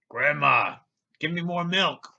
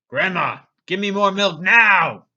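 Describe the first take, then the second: First: It is said in a calm, plain tone. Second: It is said in an angry tone.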